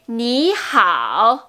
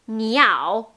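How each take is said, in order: First: The h sound is clearly breathed before ao. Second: The h sound is dropped, giving niao. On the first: It is the greeting hello. The speaker calls it right. "Donc c'est ni hao" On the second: It sounds like the word for bird. The speaker calls it wrong. "si on oublie le H comme ha ha ha, le hao, ça devient niao"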